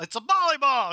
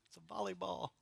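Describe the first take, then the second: First: It's a volleyball blurted out high and loud; exclaimed. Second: It's a volleyball dropped to a near murmur, much softer; soft repeat. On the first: Preacher stressing the absurdity to the congregation, loud exclaim. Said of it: "emphatic exclamation". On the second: Preacher repeating the point to the congregation, softly. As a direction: let "volleyball" fall away quietly. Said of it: "repeated soft". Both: Real, not acted.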